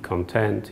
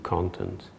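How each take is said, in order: First: It is pronounced as the adjective form. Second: It is pronounced as the noun form. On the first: Someone is happy. "am I happy? And this is, would be content" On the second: It refers to material or data. "Or do I have to process a lot of data? And that would be content"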